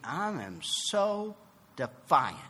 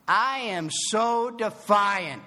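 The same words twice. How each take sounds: First: "I am so defiant" slow, leaning on "so"; stressed defiance. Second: "I am so defiant" slow, louder, every word hit; emphatic confession. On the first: Speaker confessing to the meeting, slow stressed "I am so defiant". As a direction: drag out "I am so defiant" deliberately. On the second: Speaker driving his point home to the meeting, slow loud stressed. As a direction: hammer "I am so defiant" out slowly. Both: Shown as a demonstration.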